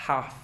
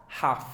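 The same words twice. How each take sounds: Both takes have the same delivery.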